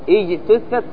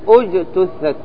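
First: The word begins with an i vowel. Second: The word begins with a u vowel. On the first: The speaker calls it wrong. "إجتثت خطأ" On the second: The speaker calls it right. "لأن التاء مضمومة فتضم همزة الوصل"

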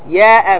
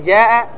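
First: The word begins with a y sound. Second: The word begins with a j sound. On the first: The speaker calls it wrong. "أصحاب حضرموت ينطقون ماذا؟ الجيم ياء" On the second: The speaker calls it right. "بدل جاء"

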